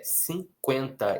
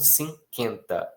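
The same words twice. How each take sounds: First: The u after q is pronounced. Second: The u after q is silent. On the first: The speaker calls it right. "a pronúncia é" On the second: The speaker calls it wrong. "e não"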